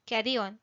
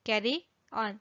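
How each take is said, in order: First: Said in the usual way. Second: "carry on" spaced out for learners; separated words. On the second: Shown as a demonstration. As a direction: pause between "carry" and "on". Teacher repeats with words separated.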